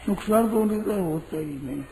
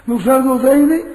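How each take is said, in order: First: Quickly clarify, lightly spoken; quick restatement. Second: "ही" punched louder and higher with a rising end; emphatic loud denial. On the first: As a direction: rush through "नुकसान तो उनके द्वारा होता ही नहीं" fast and a little softer. (जल्दी-जल्दी, हल्के स्वर में दोहराना) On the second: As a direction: stress "ही" hard, voice up and loud. ("ही" पर ज़ोर, ऊँची और तेज़ आवाज़ में) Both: Shown as a demonstration.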